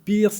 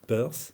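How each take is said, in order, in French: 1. Le nom se prononce avec des sons français. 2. Le nom se prononce avec des sons anglais. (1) "donc je vais le faire en français" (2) "évidemment on prononce en anglais Peirce"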